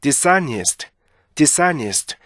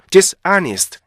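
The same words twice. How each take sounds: First: "dishonest" joined as di-SA-nist; one-piece "dishonest", middle syllable stressed; native-like linking. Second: "dishonest" as DIS, AH-nist; learner's "dishonest", both halves stressed; wrong split reading. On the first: Shown as a demonstration. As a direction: let s run into the vowel in "dishonest". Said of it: "이렇게 읽어줘야 되는 거죠". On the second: Retold or imitated. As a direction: leave a gap after dis in "dishonest". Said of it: "이게 아니고".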